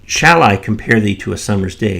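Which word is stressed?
shall. The stress falls on the word shall. The speaker wonders whether to compare at all. "If you put the emphasis on that first shall"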